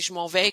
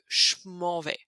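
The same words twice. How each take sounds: First: The 'je' begins with a voiced 'zh' sound. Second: The 'je' begins with a voiceless 'sh' sound. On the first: The speaker calls it right. "C'est plus facile de prononcer je m'en vais" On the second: The speaker calls it wrong. "que je m'en vais"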